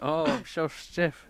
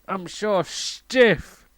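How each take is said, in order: First: It is groaned in a low voice. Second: It is shouted in a loud voice.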